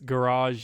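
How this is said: It is said with an American pronunciation. "it's garage in American English"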